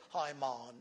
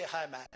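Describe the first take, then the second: First: West Indian "Hi, man" with a long, open "maan"; light West Indian lilt on "Hi, man"; West Indian accent. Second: Said in the usual way. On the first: Shown as a demonstration. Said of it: "So they say". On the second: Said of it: "we say".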